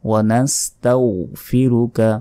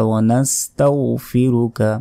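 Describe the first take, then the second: No difference in how they are said.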